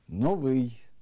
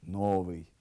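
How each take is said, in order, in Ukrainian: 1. Слово має стандартне місце наголосу. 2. Слово має зміщене місце наголосу.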